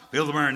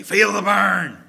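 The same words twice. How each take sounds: First: Said in the usual way. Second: Loud, slow coach bark. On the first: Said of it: "Bernie Sanders didn't have that". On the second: Retold or imitated. Coach urging skinny kids at the bench press, loud slow bark. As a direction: drag it out like a gym coach. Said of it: "And he would say".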